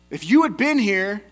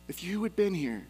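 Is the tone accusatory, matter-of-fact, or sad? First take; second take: accusatory; sad. First: It is said in an accusing tone. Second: It is said in a sad tone.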